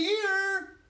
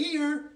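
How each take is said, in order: First: Very high, loud, stretched call; insistent shout. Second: Higher, louder answer; calling out. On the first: Invisible boy answering daddy once more, insistent yell. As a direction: belt it out, long and high. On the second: Invisible boy answering his daddy, raised call. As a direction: pipe up so he can find you. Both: A narrator's reading.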